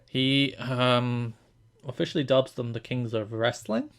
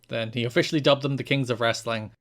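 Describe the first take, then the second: First: It is said hesitantly, rising at the end. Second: It is said with a lot of excitement.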